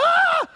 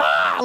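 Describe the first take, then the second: First: Very high, loud shriek; startled shriek. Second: Loud mock scream of a frog; imitated frog scream. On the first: Retold or imitated. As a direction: shriek as if you stepped barefoot on something. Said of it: "I'm sure I shrieked. I'm like". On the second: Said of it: "And, and it went".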